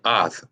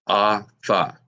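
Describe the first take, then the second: First: It is said as one syllable ending in th. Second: It is said as two syllables ending in tha. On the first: The two letters are joined by a connector. "That would be ath with the connector" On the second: The two letters are not joined by a connector. "Without the connector, the word will actually be pronounced ah-tha"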